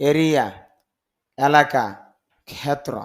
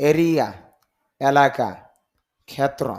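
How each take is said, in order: No difference in how they are said.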